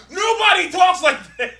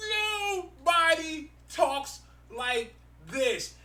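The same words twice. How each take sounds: First: High, loud laughing protest; incredulous outburst. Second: High, softer, drawn out word by word; slow, exasperated emphasis. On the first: Mocking awful comic book dialogue, incredulous outburst. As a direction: burst out in amused disbelief. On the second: Driving home that the comic dialogue is awful, slow exasperation. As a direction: space out every word in exasperation. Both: Real, not acted.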